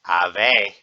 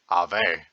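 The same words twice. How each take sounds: First: It is said in a normal speaking voice. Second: It is said in a deep, lowered voice.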